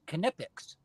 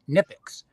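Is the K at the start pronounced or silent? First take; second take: pronounced; silent. First: The initial K sound is pronounced. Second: The initial K sound is silent. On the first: This is the original German way. "the Germans used to pronounce the K" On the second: This is the simplified American way. "not pronouncing the K"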